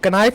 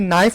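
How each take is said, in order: First: The word begins with a pronounced k sound. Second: The word begins with an n sound. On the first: The speaker calls it wrong. "इसे कनाइफ नहीं" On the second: The speaker calls it right. "के silent होता है, नाइफ पढ़ा जाता है"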